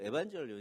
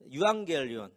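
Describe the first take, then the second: First: It begins 'evan' with a soft j sound. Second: It begins 'yuang' with a hard g sound. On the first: "다른 발음으로 하는 사람은" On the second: "헬라어로 복음은"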